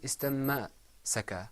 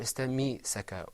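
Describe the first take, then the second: First: An a vowel follows the m sound. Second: An i vowel follows the m sound. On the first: "It wasn't istamma-saka" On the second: "or istammi-saka"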